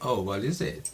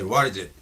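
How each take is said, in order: First: It sounds curious, like a simple question. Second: It sounds a little angry.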